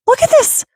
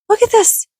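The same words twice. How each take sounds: First: Even higher squeaky cute voice, rising; cutesy squeal. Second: Very high squeaky cute voice; cutesy squeal. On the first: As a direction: squeak with mounting delight. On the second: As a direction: squeal it like talking to a plushie. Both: Real, not acted. Showing off new ducky.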